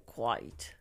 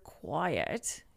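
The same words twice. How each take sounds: First: Low, soft "quite" for "quiet"; one-syllable "quite". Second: Said in the usual way. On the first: Retold or imitated. Quoting the grandfather who couldn't say quiet, "quite". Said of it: "He would say "quite". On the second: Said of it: "He couldn't say the word quiet".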